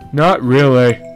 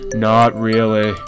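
First: It is said with normal, varied pitch. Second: It is said in a flat monotone.

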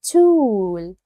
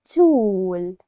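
No difference in how they are said.

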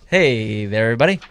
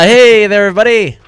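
First: It is said at normal volume. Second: It is shouted very loudly.

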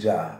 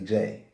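First: The name's vowel sounds like 'ah'. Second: The name's vowel sounds like 'ay'. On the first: This is how people commonly say it. The speaker calls it wrong. "Pronounce it Ja" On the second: This is how the name is really said. The speaker calls it right. "but it's actually J"

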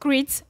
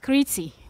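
First: The name is said with an English pronunciation. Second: The name is said with a Greek pronunciation. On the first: This is what non-Greek speakers call the island. "Non-Greek speaking people call it Crete" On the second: This is what Greek speakers call the island. "the Greeks call it Crete"

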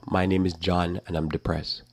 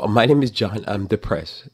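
First: It is said in the speaker's ordinary voice. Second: It is said in a put-on younger voice. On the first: The speaker calls it wrong. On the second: The speaker calls it right.

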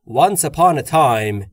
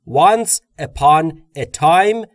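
First: The words run together very smoothly and quickly. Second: The words are said separately, one by one. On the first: The speaker calls it right. "یا خیلی روونتر" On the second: The speaker calls it wrong. "به جای اینکه بگم"

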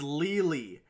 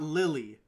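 First: The first vowel is long, like 'lee'. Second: The first vowel is short, like 'lih'. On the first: The speaker calls it right. "it's LEELEE" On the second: The speaker calls it wrong. "It's not Lily"

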